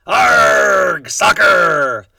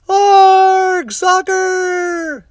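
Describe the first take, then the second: First: Loud, higher pirate shout; pirate yelling. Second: Very high, loud chorus yell; crew yelling. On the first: Braidbeard kicking the ball on deck, loud pirate yell. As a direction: bellow it while kicking the ball. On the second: The crew copying their captain, very high loud yell. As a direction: echo the captain like a rowdy crew. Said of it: "the crew yelled". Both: A narrator's reading.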